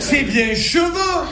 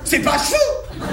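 First: "cheveux" slow, with the first E pronounced; E fully sounded. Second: "cheveux" as high one-syllable "ch'veux"; E swallowed. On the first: Marseillais correcting Parisians, "cheveux" with its E fully sounded. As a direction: say "cheveux" in two full syllables, che-veux. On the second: Marseillais mocking Paris speech, "cheveux" squeezed into "ch'veux". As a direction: drop the first E of "cheveux", mock Parisian. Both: Shown as a demonstration. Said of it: "Il y a bien un E entre le H et le V".

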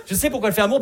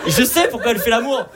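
First: High and loud, still building; repeated punchline. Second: Much higher, louder build to the reveal; excited punchline. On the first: Comic repeating the grandmother reveal, high and loud. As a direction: press the line again for effect. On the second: Comic telling the crowd about his grandmother, loud and high. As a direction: hype up the secret. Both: Shown as a demonstration.

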